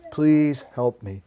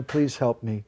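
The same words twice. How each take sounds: First: Please drawn out and louder, begging; slower, louder plea. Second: Pleading prayer. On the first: Devotee repeats the prayer, now slower and louder. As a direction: lean in and beg slowly. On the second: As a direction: ask gently for help. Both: Acted. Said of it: "Sometimes we cry".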